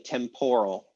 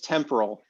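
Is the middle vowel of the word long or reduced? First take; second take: long; reduced. First: The middle vowel is a long O sound. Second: The middle vowel is a tiny reduced schwa. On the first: The speaker calls it wrong. "English speakers pronounce it as like a really long O" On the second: The speaker calls it right. "the middle syllable really kind of even isn't there"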